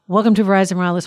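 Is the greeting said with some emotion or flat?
some emotion. The greeting is said with some emotion. "if you can imagine, super fast"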